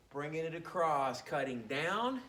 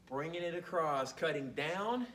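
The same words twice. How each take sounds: The two takes are said the same way.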